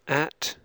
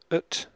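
First: The word has a full, clear vowel. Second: The vowel is reduced to a weak schwa. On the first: "First the strong form" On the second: "then the weak form"

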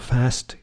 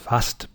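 First: It is said in an American accent. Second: It is said in a northern English accent. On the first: "In America, the words are" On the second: "In the north of England, it's"

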